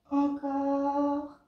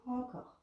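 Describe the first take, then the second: First: « Encore » lancé fort pour motiver; encouragement fort. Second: Said in the usual way. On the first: Real, not acted. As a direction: pousse l'élève avec un « Encore » sonore. Coach urges repeated reps. (encouragement énergique)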